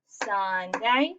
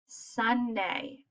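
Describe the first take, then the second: First: "Sunday" in two clear beats, ending on a rise; syllable counting. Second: Said in the usual way. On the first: Shown as a demonstration. Teacher showing children how to count syllables, measured two-beat "Sunday". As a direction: say "Sunday" as SUN-DAY, one beat per syllable. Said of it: "I could do it like this". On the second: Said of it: "regular, the way we talk".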